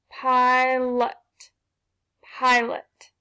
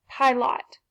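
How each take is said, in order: First: Pilot with an uh in the second syllable, pie-lut; schwa sound. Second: Pilot with a full O, pie-lot; wrong vowel. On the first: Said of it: "let's try a schwa sound". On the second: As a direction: say Pilot as pie-lot, the second syllable clear. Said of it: "doesn't sound right". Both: Shown as a demonstration.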